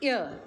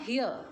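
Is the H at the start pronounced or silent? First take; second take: silent; pronounced. First: The word begins with a vowel sound, H silent. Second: The word begins with an audible H sound. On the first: The speaker calls it right. "we pronounce it as ear" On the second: The speaker calls it wrong. "not a here"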